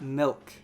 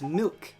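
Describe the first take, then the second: First: The word is said with a Midwestern pronunciation. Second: The word is said with a standard pronunciation. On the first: The speaker calls it wrong. "not milk" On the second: The speaker calls it right. "It's it's milk"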